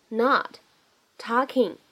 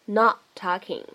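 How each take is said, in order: First: "not talking" as two separate words, pause between. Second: "not talking" with the t of "not" held, unreleased; loss of plosion. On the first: Teacher introduces the two words, "not talking" said separately. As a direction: say "not", stop, then "talking". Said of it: "这样的两个单词呢". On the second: Teacher shows lost plosion, "not talking" with unreleased t. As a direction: hold the first t, then release into "talking". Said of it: "我们可以做一个失去爆破". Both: Shown as a demonstration.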